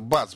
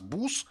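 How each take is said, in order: First: The vowel is an open 'a'-like sound. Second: The vowel is a rounded 'oo'-like sound. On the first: "вместо «бас»" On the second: "они говорят"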